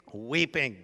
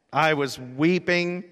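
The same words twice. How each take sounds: First: Said in the usual way. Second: "weeping" said slowly and loudly, near tears; emotional, stressed weeping. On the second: Real, not acted. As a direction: lean hard and slow on "weeping", louder, voice welling up. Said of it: "weeping like a baby".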